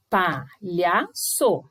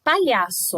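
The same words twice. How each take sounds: First: "Palhaço" bem devagar, PA, LHA, ÇO; separação de sílabas. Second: Said in the usual way. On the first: Shown as a demonstration. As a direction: dite "Palhaço" com pausa em cada sílaba. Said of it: "Importante separação de sílabas". ("Palhaço" silabado e pausado)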